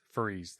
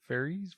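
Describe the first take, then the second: First: Faris said fur-EECE, lower and softer; settled pronunciation. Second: Fairies said FAIR-eez, higher and questioning; checking a pronunciation. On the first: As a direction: say Faris with an "ur" and final s. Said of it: "that was it". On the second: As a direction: say Fairies like the winged creatures, as a question. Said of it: "the accented word?". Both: Shown as a demonstration.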